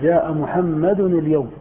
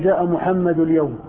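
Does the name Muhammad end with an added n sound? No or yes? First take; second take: yes; no. First: Muhammad ends with an added n sound. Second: Muhammad ends without an added n sound. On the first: The speaker calls it right. "تقول جاء محمد اليوم" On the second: The speaker calls it wrong. "ما يمكن تقول جاء محمد اليوم"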